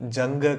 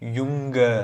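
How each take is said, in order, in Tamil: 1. இந்த சொல் j ஒலியில் தொடங்குகிறது. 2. இந்த சொல் y ஒலியில் தொடங்குகிறது. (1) "ஜங்க கிடையாது" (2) "ஜே இருந்தாலே யுங்க"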